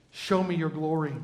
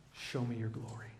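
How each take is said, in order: First: Said in the usual way. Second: Much softer, hushed "Show me your glory"; hushed plea. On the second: Acted. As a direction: breathe the request in awe. Moses voiced making his request.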